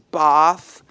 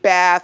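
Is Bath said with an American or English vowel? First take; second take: English; American. First: Bath is said with an English long vowel. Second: Bath is said with an American flat vowel. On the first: This is how the locals say it. The speaker calls it right. "I was reminded many times it's Bath" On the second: This is how the speaker naturally said it. The speaker calls it wrong. "I called it Bath"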